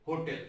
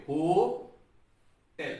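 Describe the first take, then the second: First: Said in the usual way. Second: 'होटेल' broken into हो, pause, टेल; syllable split. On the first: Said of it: "जब होटल को बोलेंगे". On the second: Shown as a demonstration. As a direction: say 'होटेल' in two slow separated syllables. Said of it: "तो ऐसे बोलेंगे". ('होटेल' को हो और टेल में रुककर बोलें)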